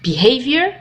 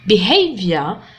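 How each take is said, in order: First: It is said with an American accent. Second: It is said with a British accent.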